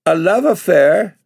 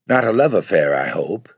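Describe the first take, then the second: First: Love affair shot up high and louder, shocked; a girl's shocked indignant cry, love rising high. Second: Mildly arch, love leaning down at the end; a light insinuating jab with love falling; a hint of a sly insinuation, love falling. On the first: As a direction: fling love affair back, high and outraged. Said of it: "cried Bella with flaming cheeks". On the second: Agency lady insinuating to Bella. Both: A narrator's reading.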